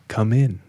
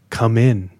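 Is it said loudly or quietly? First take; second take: quietly; loudly. First: It is said quietly. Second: It is said loudly.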